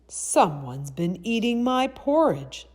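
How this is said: The voice is rough, deep and gruff. A big father bear is speaking. "in his rough, gruff voice"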